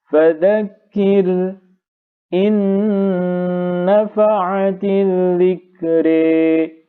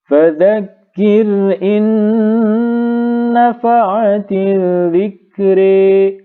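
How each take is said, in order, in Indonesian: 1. Ada jeda singkat sebelum 'in'. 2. Kata-katanya menyambung tanpa jeda sebelum 'in'. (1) "membaca dengan saktah" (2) "Sama-sama tahqiq"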